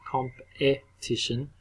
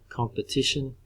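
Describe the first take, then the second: First: The word is said slowly with clear vowels. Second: The word is said quickly with a reduced vowel. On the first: The speaker calls it wrong. "if we slow it right down" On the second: The speaker calls it right. "So we need to say it quickly"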